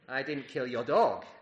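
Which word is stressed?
dog. The word 'dog' carries the emphasis.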